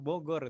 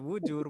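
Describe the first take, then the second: First: The middle consonant is a g sound. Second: The middle consonant is a j sound. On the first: The speaker calls it right. "Bogor gitu" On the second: The speaker calls it wrong. "Jangan dibaca bujur"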